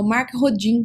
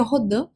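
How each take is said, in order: First: Rodin as "ho-DJEEN", as it is written; spelling pronunciation. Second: Rodin as "ho-DAN", with a nasal ending; French-style pronunciation. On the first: Presenter helping viewers spell the name, Rodin pronounced "ho-DJEEN". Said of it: "só pra você entender como é que se escreve". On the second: Presenter telling viewers the proper name, Rodin pronounced "ho-DAN". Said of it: "o certo seria Rodin". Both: Shown as a demonstration.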